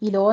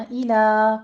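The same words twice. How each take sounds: First: إِلَو said ending in o, the wrong way; wrong pronunciation. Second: إِلَى ending in an open a; correct pronunciation. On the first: Teacher showing students the mistake, إِلَو. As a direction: end إِلَو with a rounded o as the error. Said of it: "إِلَو نہیں کہنا". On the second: Teacher modelling the right vowel for students, open a. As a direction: say إِلَى with a clear open final a. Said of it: "فتح قائمہ ادا کیجیے". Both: Shown as a demonstration.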